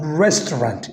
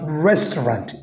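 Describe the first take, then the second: First: It is said with English pronunciation. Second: The same.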